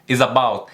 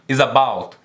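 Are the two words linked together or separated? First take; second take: linked; linked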